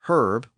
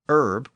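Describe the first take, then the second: First: The word begins with an audible H sound. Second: The word begins with a vowel, no H. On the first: This is the British pronunciation. "In Britain, herb with the H one out" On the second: This is the American pronunciation. "but in America, herb without the H"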